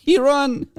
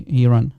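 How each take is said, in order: First: High-pitched, breaking into real laughter; laughing. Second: Said in the usual way. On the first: Real, not acted. Streamer mocking an opponent who left, laughing. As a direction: crack up while saying it.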